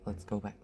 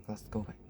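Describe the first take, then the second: First: Said in the usual way. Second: Whispered, no voice. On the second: Real, not acted. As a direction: breathe it out in a whisper. Repeats the phrase, then whispers it.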